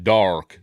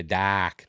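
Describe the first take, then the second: First: Said in the usual way. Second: New England dark. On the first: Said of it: "not traditional American dark". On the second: Shown as a demonstration. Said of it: "they say dark".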